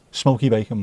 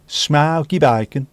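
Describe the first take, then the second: First: Said in the usual way. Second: Slow, drawn-out Brummie vowels; broad mock Birmingham accent. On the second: Shown as a demonstration. Crisp fan naming a favourite flavour in a Brummie accent. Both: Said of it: "said in a Brummie accent".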